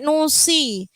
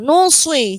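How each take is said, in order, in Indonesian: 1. Bunyi s itu ringan dan tipis. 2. Bunyi s itu berat dan tebal. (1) "Kalau nusi nanti seperti sin" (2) "harus tetap tebal"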